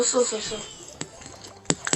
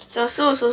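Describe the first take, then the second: First: Slow trailing whisper; fading whisper. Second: Said in the usual way. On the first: Shown as a demonstration. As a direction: let the words die away into a whisper. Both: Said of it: "repeats word fading to whisper".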